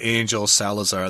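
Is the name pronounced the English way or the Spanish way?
English. The name is said with English pronunciation. "You can say Angel Salazar, that's fine"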